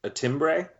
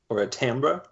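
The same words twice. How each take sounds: First: "timbre" said TIM-bray, ending in bray. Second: "timbre" said TAM-ber, like amber with a T. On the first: Offering a word for his voice quality, "timbre" as TIM-bray. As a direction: say "timbre" with tim, then a long ay. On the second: Offering the other reading, "timbre" as TAM-ber. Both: Shown as a demonstration. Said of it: "Would you call it".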